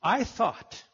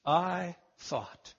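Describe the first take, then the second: First: Said in the usual way. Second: "I thought" said slowly, low and soft, each word weighed; stress on two words. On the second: Shown as a demonstration. Preacher lingering on "I thought" for his listeners. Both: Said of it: "Those were two words".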